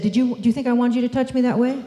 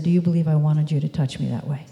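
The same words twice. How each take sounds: First: Higher, quicker challenge lifting on "that way"; defensive rising question. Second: Calm question settling low on "that way"; neutral downward question. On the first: What if she challenged her boss, defensive rising ending on "way". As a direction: fire it off fast and high, rising to "way". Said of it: "Now, what if she'd said". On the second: Daughter questions boss who touched her, neutral falling ending on "way". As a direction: ask evenly, coming down at the end on "way". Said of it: "helped her daughter think of a question". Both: Shown as a demonstration.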